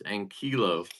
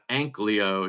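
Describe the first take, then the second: First: The 'l' sound comes after the 'ee' sound. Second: The 'l' sound comes before the 'ee' sound. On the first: The speaker calls it right. "it's Ankilo" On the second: The speaker calls it wrong. "so it's not Anklio"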